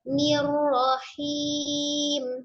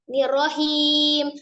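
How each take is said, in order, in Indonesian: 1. Bunyi r-nya mengalir terus dengan lancar. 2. Bunyi r-nya terputus mendadak. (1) "Tapi ngalir dulu orangnya" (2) "Jangan nirrahim"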